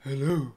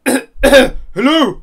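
First: Soft, low hushed hello; leaning in to whisper. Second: Booming, too-loud greeting; loud hello. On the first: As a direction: drop to a hush. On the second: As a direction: blurt it out loud by mistake. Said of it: "sorry, whisper". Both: Acted.

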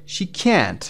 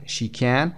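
First: Can't pitched higher and held long; stress on can't. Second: Said in the usual way. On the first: Shown as a demonstration. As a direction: lift and stretch can't. (can't بلندتر و کشیده) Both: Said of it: "به این صورت".

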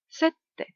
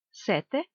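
First: "Сетте" with a long held T; double T. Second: Said in the usual way. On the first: Shown as a demonstration. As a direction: pause on the T of "Сетте" before releasing it. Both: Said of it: "з однією або подвоєною літерою".

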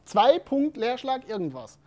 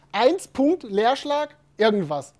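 First: Slowly spelling out zwei Punkt Leerschlag irgendwas, word by word; slow dictation. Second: Slowly spelling out eins Punkt Leerschlag irgendwas, word by word; slow dictation. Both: Shown as a demonstration. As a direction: dictate each piece as if typing it. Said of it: "Sondern jemand hat geschrieben".

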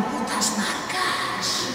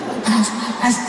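First: Slow, sinister whisper "Putas marcas"; evil supermarket boss plotting; villain whisper. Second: "putas marcas" breaking into a laugh; laughing through it. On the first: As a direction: hiss it like a cartoon villain in his castle. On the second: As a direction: lose the villain voice to giggles. Villain voice collapsing into laughter. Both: Pretend.

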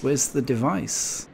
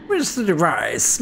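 First: Said in the usual way. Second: Lightly voiced villain, pitched up; a hint of a scheming villain; mustache twirling villain. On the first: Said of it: "twirling his mustache like this". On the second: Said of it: "That's how he sounds".

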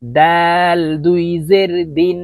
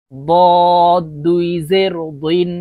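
First: Slow দাল with a light, thin d; thin dal. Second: বদ said as a slow, heavy, rounded dod; thick heavy dod. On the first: Teacher modelling for learners, long দাল with a thin d. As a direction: keep দাল and দিন light, vowel drawn out. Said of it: "দাল পাতলাভাবে উচ্চারণ হবে". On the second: Teacher modelling for learners, বদ as thick drawn-out dod. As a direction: fill the mouth for বদ, a long emphatic d. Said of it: "দদ মোটা করে উচ্চারণ করতে". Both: Shown as a demonstration.

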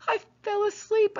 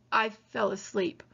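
First: 'asleep' said again, higher and insistent; repeated. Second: Said in the usual way. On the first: Acted. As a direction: repeat 'I fell asleep' up high, pressing it. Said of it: "I repeated".

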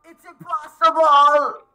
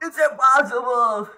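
First: Higher, louder and slow, stretching impossible; a loud despairing protest; drawn-out cry. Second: Said in the usual way. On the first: Real, not acted. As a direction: wail it out in disbelief. Frustrated outburst at the game.

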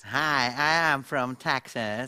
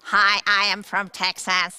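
First: Slow, twangy Texan accent; Texas twang. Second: Loud Texan accent with twang; Texas twang. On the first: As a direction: drawl it like a Texan. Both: Shown as a demonstration. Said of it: "Dat is twang".

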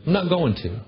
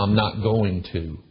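First: Not hit firmly, repeated as a final word; stress on not. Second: Slow, falling, final I'm not going to; firm refusal. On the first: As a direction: punch the not in I'm not going to. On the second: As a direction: lean on going and let it drop. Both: Retold or imitated. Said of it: "And I said".

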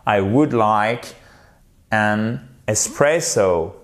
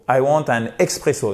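First: Slow model sentence, ESPRESSO with S and stressed PRESS; correct polite English. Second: ESPRESSO said as EXPRESSO, with a KS; wrong French-style English. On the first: Teacher shows how to order, slow careful English. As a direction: draw out ESPRESSO, S sound, no X. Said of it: "Faut, faut dire". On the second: Teacher acts out the learner's mistake, French-style English. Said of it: "Non, non". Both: Shown as a demonstration.

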